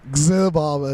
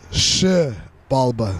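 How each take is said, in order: First: The name begins with a 'gz' sound. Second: The name begins with an 'sh' sound. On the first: The speaker calls it wrong. "a lot of people like to say" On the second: The speaker calls it right.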